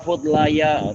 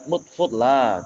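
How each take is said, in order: First: The word ends with an added short syllable. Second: The word ends in a lengthened vowel. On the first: The speaker calls it wrong. "malah malah rusak" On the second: The speaker calls it right. "begitu aja dibaca dengan mat"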